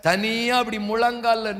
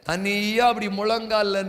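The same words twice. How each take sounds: The two takes are said the same way.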